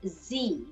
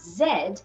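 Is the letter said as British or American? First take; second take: American; British. First: The letter name is said the American way. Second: The letter name is said the British way.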